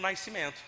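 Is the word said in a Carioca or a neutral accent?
Carioca. It has a Carioca glide before the s. The speaker calls it wrong. "eu descobri que eu falava errado"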